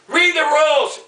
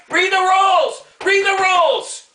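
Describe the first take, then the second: First: Firm, annoyed repeat of the order; angry demand. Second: Pissed-off yelling. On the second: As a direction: bark the order at him, fed up. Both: Real, not acted. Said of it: "Okay, I'm pissed off".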